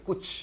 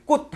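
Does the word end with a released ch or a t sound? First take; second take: ch; t. First: The word ends with a released ch sound. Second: The word ends with an unreleased t sound. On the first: The speaker calls it wrong. "치읓이 되게 발음하면 이렇게 발음하셔야 돼요" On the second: The speaker calls it right. "디귿으로 발음하죠"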